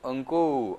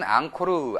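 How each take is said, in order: First: It is said eong-kko-u, ending in u. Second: It is said ang-ko-reu, ending in reu. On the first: This is how Cambodians say it. "캄보디아 사람들은 엉꼬우" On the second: This is how Koreans say it. "우리 한국 분들은 앙코르"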